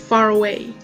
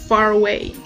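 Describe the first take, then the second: The two takes are said the same way.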